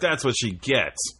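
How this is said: It is said in a gloating, vindictive tone. The misfortune is deserved. The speaker calls it wrong.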